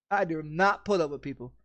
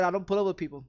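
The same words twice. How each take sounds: First: "do not" spelled out with a firm fall on "put"; stress on not. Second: Said in the usual way. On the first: Shown as a demonstration. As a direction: split the contraction and lean on "not".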